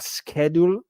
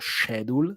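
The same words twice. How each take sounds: First: The word is said in a non-British way. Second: The word is said in a British way.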